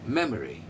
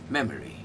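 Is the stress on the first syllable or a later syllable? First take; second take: first; first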